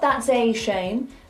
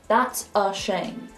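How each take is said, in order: First: The word 'a' has a full vowel. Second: The word 'a' is reduced to a schwa. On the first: The speaker calls it wrong. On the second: The speaker calls it right.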